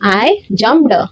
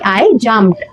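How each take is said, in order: First: The ending is said with a heavy, separate d. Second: The ending is said with a light, quiet d. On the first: The speaker calls it wrong. "कोण कोण असं म्हणतात" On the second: The speaker calls it right. "किती silently मी ईडी वापरते आहे"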